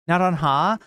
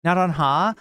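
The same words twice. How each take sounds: First: The R is a single quick tap. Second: The same.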